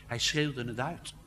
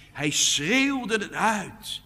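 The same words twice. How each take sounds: First: Said in the usual way. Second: Hoog, luid en langzaam uitgeroepen. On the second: Shown as a demonstration. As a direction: roep het uit zoals Jezus riep. (de prediker doet Jezus' roep voor, luid en langzaam) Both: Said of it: "een woord dat letterlijk zegt".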